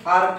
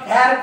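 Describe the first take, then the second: First: The vowel is long and open, as in father. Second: The vowel is short and front, as in cat. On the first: The speaker calls it right. "फार का म्हणतात" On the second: The speaker calls it wrong. "याला फॅर का म्हणत नाही"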